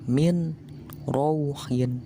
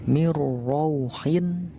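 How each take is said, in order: First: The n is pronounced separately before the r. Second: The n merges into a doubled r sound. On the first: This is how it is written. "Ditulisnya mah min rauhin" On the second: This is how it is read with recitation rules. "ketika dibaca memakai hukum tajwid, jadi mirrauhin"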